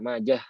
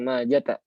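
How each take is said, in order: First: The name ends with a soft h sound. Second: The name ends with a t and vowel. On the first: The speaker calls it right. "Jadi yang yang benar tuh ha aja" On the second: The speaker calls it wrong. "Jadi bukan Majata, bukan pakai ta marbutah"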